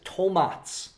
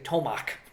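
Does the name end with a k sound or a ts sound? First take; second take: ts sound; k sound. First: The name ends with a ts sound. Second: The name ends with a k sound. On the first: The speaker calls it right. "This is the proper way to pronounce it" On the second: The speaker calls it wrong. "a lot of people in English speaking would say tomac"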